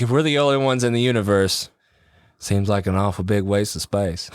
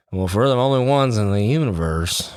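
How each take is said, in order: First: Put-on a light Texas accent, laughing at the end; better Matthew McConaughey Texas accent. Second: Put-on a faint, failed stab at a Texas accent; barely any Texas accent in the quote; weak Matthew McConaughey Texas accent. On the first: Second try at the Contact quote, light Texas accent. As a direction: lean a little more into the Texas accent. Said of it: "That was better". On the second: Quoting Contact to friends, hint of Texas accent. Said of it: "What is this accent?".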